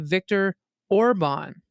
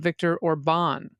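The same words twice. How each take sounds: First: The stress is on the first syllable of Orban. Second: The stress is on the second syllable of Orban. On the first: The speaker calls it right. "the first syllable of each word is emphasized. So ... we say" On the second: The speaker calls it wrong. "instead of ... which is how I heard you say it"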